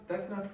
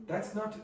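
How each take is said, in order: Both takes have the same delivery.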